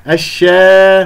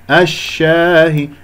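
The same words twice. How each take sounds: First: الشا loud with lips spread in a smile, aa thinned toward e; smiling alif. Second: الشاهي slowly with a full open aa after sh; unsmiling open alif. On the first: Teacher shows the error, smiled thin vowel. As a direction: smile wrongly through الشا. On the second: Teacher models the right vowel, open and unsmiling. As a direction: keep lips unspread on الشاهي. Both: Shown as a demonstration. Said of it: "لا ت-، تجعل هذه ابتسامة".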